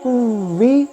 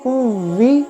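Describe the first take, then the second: The two takes are said the same way.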